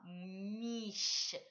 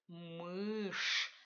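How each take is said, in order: First: The final sh sound is softened, palatalized. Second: The final sh sound is hard, jaw lowered. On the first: The speaker calls it wrong. "Ne dites pas" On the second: The speaker calls it right. "respectez cette prononciation dure. La mâchoire est bien baissée"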